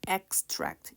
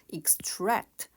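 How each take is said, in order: First: The stress is on the first syllable. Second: The stress is on the second syllable. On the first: It is a noun meaning an excerpt. "발췌라는 뜻일 때 extract, 이음절 강세 에로 발음되고요" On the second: It is a verb meaning to extract. "동사일 때에는 이음절 강세로"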